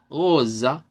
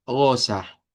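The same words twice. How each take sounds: First: "rosa" with a centralized final A; Portuguese "rosa". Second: "rosa" with an open Spanish final A; Spanish-style "rosa". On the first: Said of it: "con la A centralizada". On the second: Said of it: "con la A del español". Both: Shown as a demonstration.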